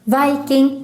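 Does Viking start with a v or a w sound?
v. Viking starts with a standard v sound.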